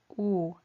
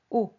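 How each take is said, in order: First: The vowel is long and drawn out. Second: The vowel is short and clipped. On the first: The speaker calls it wrong. "no es U" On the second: The speaker calls it right. "pero es U"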